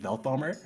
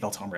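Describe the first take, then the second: First: The middle consonant is a th sound. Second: The middle consonant is a plain t sound. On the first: "there's a T H in Veltomer, and therefore it could absolutely be Velthomer" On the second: "I'm gonna say Veltomer anyway"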